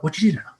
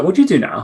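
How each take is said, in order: First: Light, higher-pitched Welsh lilt; imitated Welsh accent. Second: Said in the usual way. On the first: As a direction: imitate a Welshman asking a question. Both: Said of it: "in his Welsh accent".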